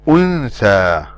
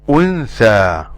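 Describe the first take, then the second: Both takes have the same delivery.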